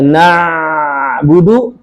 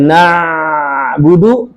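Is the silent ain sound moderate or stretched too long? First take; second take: stretched; stretched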